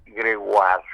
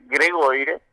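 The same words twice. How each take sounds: First: Gregoire said French, grewal, stress on the A. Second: Gregoire as written, Spanish ending; spelled way. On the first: Correcting how his surname is said, Gregoire in French. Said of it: "Con acento en la A". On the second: Telling his name, Gregoire read as it is spelled. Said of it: "se pronuncia Gregoire". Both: Shown as a demonstration.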